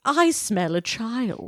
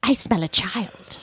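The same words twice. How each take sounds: First: Slow, higher witch croon with a nasal twang; slow, nasal witch relishing the word child. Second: Slow, sing-song witch voice; sing-song witch sniffing out a child; Kathy Najimy witch. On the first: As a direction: draw out the line like a sniffing witch. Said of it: "hers would be a little more nasally". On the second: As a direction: croon it out like a giddy witch. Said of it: "the Kathy Najimy, um, voice". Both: Pretend.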